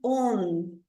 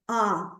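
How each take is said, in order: First: The vowel is said as a plain rounded o. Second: The vowel is said with a different, opener sound. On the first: The speaker calls it wrong. "Esse O não é on" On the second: The speaker calls it right. "é on"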